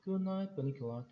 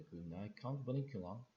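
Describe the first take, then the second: First: Said in the usual way. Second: A touch of mock Transylvanian; lightly sarcastic attempt at a Transylvanian accent. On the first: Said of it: "Toby said". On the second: A narrator's reading. Boy bidding the rabbit good night, sarcastic mock-Transylvanian accent. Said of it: "Pete said sarcastically, in what I took to be his attempt at a Transylvanian accent".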